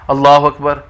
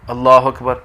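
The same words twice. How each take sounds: Both takes have the same delivery.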